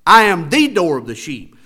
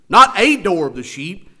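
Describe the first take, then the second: First: "the" punched, louder; stress on the. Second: "a" said as a long, stressed "ay". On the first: Pastor to congregation, insisting on the door, "the" stressed. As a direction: hit "the" hard as the only one. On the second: Pastor to congregation, rejecting a door, "a" stressed. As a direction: lean on the word "a" to reject it. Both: Shown as a demonstration. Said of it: "notice again how emphatic he is".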